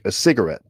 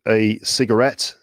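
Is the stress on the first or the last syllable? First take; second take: first; last. First: The stress falls on the first syllable. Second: The stress falls on the last syllable. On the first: This is the American pronunciation. "in the US, you might smoke a cigarette" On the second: This is the British pronunciation. "in the UK, you'd smoke a cigarette"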